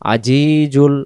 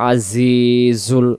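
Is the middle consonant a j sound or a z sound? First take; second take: j sound; z sound. First: The middle consonant is a j sound. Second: The middle consonant is a buzzing z sound. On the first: The speaker calls it wrong. "তখন জিম অক্ষর" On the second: The speaker calls it right. "আওয়াজটা সামনের নিচের দাঁতের জায়গা থেকে হবে"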